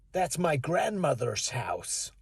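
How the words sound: It is spoken in an American accent. "In America, they'd say"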